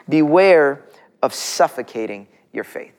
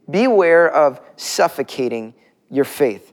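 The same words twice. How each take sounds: First: Beware of suffocating your faith, slow and deliberate, leaning on beware; slow emphatic point. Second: Beware of suffocating your faith repeated slowly, beware stressed, falling at the end; slow repeated point. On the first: Pastor dictating point one for notes, slow and emphatic. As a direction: dictate the point slowly so they can write it. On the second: Pastor repeating point one for notes, slow and stressed. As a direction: say it again slowly for note-takers. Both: Shown as a demonstration. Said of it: "take notes this morning".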